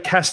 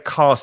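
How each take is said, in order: First: The vowel in the word is short. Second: The vowel in the word is long. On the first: "Lynn's is is a bit shorter" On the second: "My vowel sounds a little longer"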